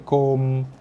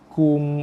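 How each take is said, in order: First: The vowel is an open o sound. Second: The vowel is a close u sound. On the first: The speaker calls it wrong. "Kum bukannya kom" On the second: The speaker calls it right. "Kum bukannya kom"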